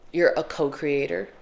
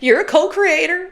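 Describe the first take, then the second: First: It sounds serious and earnest. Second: It sounds odd and not serious.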